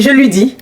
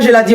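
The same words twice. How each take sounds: First: «je lui dis» given as the right form; correct form. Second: «je la dis» said as the wrong form. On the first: Correcting followers on social media, she gives the right form. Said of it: "on dit". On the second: Correcting followers on social media, she quotes their error. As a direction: model the mistake «je la dis». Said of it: "On dit pas". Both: Shown as a demonstration.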